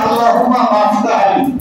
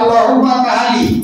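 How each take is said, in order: First: The second word is pronounced as maftah li. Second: The second word is slurred into tahali. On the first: "কেউ বলে আল্লাহুম্মা মাফতাহ লি" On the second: "আবার কেউ বলে আল্লাহুম্মা তাহালি"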